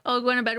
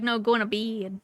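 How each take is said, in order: First: Said in the usual way. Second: "bed" said like "bid", vowel drawn out; playful merged vowel. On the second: Shown as a demonstration. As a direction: stretch "bed" into a Southern "bee-id". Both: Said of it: "We just like to say that".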